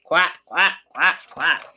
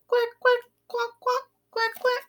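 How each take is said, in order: First: Lower, louder quack quack; a big shy duck calling from afar. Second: High little quack quack; small duck quack. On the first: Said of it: "The big ducks say". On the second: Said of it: "The small ducks waggle their tails and quack". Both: Acted.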